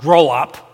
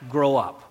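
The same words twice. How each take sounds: First: It is said in a harsh, scolding tone. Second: It is said in a soft, gentle tone. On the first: It is a rebuke. The speaker calls it wrong. "Not grow up" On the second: It is a loving invitation. The speaker calls it right. "in a gentle way"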